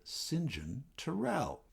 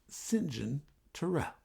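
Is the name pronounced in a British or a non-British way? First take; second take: British; British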